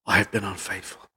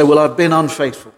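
First: Much lower and much softer, grieving; with mourning. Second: Casual, offhand admission; glib confession. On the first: Preacher showing the congregation how to confess, mournful and hushed. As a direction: confess it as a heavy, sorrowful admission. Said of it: "You should say it with a sense of mourning". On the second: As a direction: toss it off lightly, no weight. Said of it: "Do you say that glibly?". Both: Shown as a demonstration.

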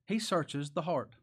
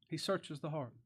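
First: Said in the usual way. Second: "He searches the heart" repeated softer; softer echo. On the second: Shown as a demonstration. Preacher echoing "He searches the heart" to his listeners, softly. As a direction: let "He" settle quietly on the repeat.

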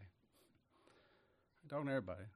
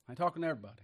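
First: Softer, dropped repeat; quiet aside. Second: Said in the usual way. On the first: Real, not acted. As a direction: say it again under your breath. Repeated aside, drops away.

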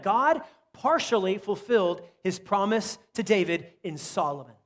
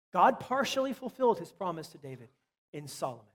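First: Slow and weighty, "partially" leaned on; first take, deliberate and emphatic for note-takers. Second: Said in the usual way. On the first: Shown as a demonstration. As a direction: drive it home slowly, "God partially fulfilled". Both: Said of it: "repeated for note-taking".

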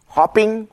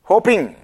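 First: Short o in hopping, said hop-ping; hopping with a short clipped o. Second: Long o in hoping, said hoh-ping; hoping with a long o, not hopping. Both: Shown as a demonstration.

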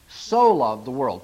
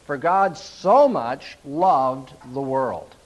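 First: Said in the usual way. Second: "so much" drawn out slowly and weighted; stress on so much. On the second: Shown as a demonstration. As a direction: lean on "so much", slow the whole line right down. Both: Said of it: "the most important word in that verse is the word so".

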